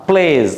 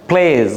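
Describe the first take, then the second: The two takes are said the same way.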